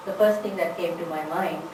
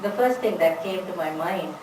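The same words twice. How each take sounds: The two takes are said the same way.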